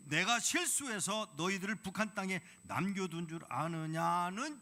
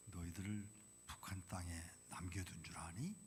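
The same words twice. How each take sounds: First: 높고 크게 울리는 하나님의 물음; 크게 꾸짖듯 되묻기; booming proclamation. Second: 속삭이는 하나님의 물음; 나지막이 속삭이듯 되묻기; whisper. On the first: God's question proclaimed. (크게 외치는 하나님의 물음) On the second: God's reply retold softly. (속삭이며 되묻는 하나님) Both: Retold or imitated.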